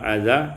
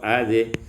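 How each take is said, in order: First: The final vowel is a plain open a. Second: The final vowel is bent toward e.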